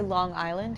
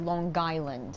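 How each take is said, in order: First: It is said in a plain, neutral accent. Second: It is said in a strong Long Island accent. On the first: "I say Long Island because that's where I live" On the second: "but a Long Island accent, I say Long Island"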